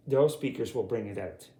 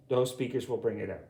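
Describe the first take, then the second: No difference in how they are said.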